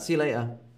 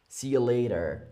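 First: The T in later is dropped. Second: The T in later sounds like a D. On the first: "I don't really say the T" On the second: "with more of a D"

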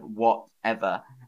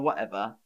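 First: The middle T is clearly pronounced. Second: The middle T is dropped to a glottal catch. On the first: "instead of" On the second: "I would probably say"

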